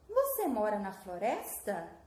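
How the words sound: It is said with a questioning intonation. It asks for information. "O que que mudou na minha entonação? Eu fiz o quê? Uma pergunta"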